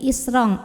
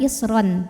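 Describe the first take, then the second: First: The word ends with a nasal ng sound. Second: The word ends with a clear n sound. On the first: The speaker calls it right. "tapi isrong, ang ya" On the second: The speaker calls it wrong. "bukan isron"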